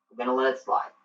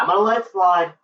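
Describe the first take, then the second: First: Softer, low repeat; quietly conceding the point; subdued concession. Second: Higher, firm declaration; grudgingly making a point of it; emphatic concession. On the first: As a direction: drop the voice and let it go. Conceding, second take subdued. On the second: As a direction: announce it pointedly, pitch lifted. Conceding, first take emphatic. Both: Real, not acted.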